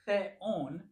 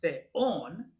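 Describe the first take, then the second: First: Theon said slowly as THE-on, first syllable stressed; mistaken stress. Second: Theon stressed on the last syllable, the-ON; correct accent. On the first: Teacher saying the mistake aloud, theon stressed on the first syllable. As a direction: say theon with the accent wrongly on THE. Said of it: "you're making a mistake". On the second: Teacher modelling the word for learners, theon stressed on ON. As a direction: lean on the ON of theon, drawn out and rising. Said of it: "that's the way that the word is pronounced". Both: Shown as a demonstration.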